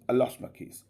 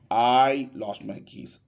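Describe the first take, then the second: First: The diphthong vowels are short and reduced. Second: The diphthong vowels are long and stressed. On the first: The speaker calls it right. "you must pronounce it in a quicker way, just in a speedy" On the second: The speaker calls it wrong. "If you pronounce it in a longer way as a stressed vowel sound, as a stressed diphthong sound"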